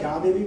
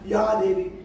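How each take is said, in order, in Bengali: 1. এটি সাধারণ বাংলা উচ্চারণে বলা হচ্ছে। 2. এটি সংস্কৃত ধাঁচের উচ্চারণে বলা হচ্ছে। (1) "আমরা যে ছোটবেলায় বাংলায় যা দেবী বলতাম" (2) "এখন যা দেবী হবে না, ইয়া দেবী"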